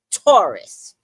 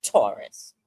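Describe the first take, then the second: First: Loud, punchy announcement of the sign; dramatic announcement. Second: Much lower, ominous movie-trailer voice on "Taurus"; deep dramatic voice. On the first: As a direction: call out the sign like a trailer voice. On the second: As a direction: drop way down and intone "Taurus" like a warning. Dramatic zodiac sign announcement. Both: Acted.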